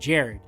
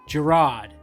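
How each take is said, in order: First: The name is pronounced like Jared. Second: The name is pronounced like Gerard. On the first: The name's owner pronounces it this way. The speaker calls it right. "but I'm Jared" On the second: Someone else pronounced the name this way. The speaker calls it wrong. "what was the pronunciation she used? Gerard"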